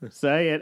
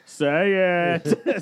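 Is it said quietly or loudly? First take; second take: quietly; loudly. First: It is said at a normal, quieter volume. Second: It is said in a much louder voice.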